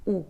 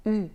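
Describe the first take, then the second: First: Ou said as the vowel in vous, the wrong sound. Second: U said with lips rounded as for ou and the tongue as for I; French u. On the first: Teacher shows the learner the wrong ou sound for U. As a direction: say ou with rounded lips pushed back. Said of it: "ne se prononce pas ou". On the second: Teacher models the learner's correct French U. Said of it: "elle se prononce". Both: Shown as a demonstration.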